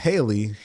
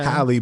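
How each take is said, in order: First: The first syllable sounds like 'hay'. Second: The first syllable sounds like 'hal'. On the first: The speaker calls it wrong. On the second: The speaker calls it right.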